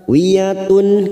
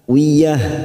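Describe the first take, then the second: First: The word ends with a t and -un. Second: The word ends with a plain h sound. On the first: The reciter continues to the next word. "karena sekarang kita wasol di sini" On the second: The reciter stops after this word. "ujungnya tak marbutoh ini kita baca dengan huruf ha"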